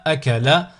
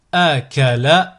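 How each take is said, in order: First: Syllables joined as one word. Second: Slow, each syllable drawn out separately; split into syllables. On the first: Teacher models a word for learners to repeat, joined in one go. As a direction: run the syllables together without pauses. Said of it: "le mot attaché". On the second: Teacher models a word for learners to repeat, split into syllables. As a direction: cut the word up, pausing between syllables. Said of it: "décomposer le mot". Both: Shown as a demonstration.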